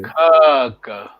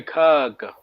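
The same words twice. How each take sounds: First: "Caca" with a long first a, kaaka; long vowel kaka. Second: "caca" with the long first a again; long vowel kaka. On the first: ("Caca" com vogal longa) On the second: ("caca" com vogal longa) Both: Shown as a demonstration. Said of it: "Vogal longa tá aí".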